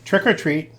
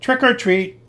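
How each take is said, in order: First: It is said very softly. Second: It is said a little louder.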